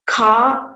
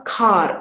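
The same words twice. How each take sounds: First: Said in the usual way. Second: "car" with the r sounded at the end; pronounced final r. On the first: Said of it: "For example". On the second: Shown as a demonstration. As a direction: curl the tongue on the r of "car". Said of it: "articulation of final voiced alveolar retroflex".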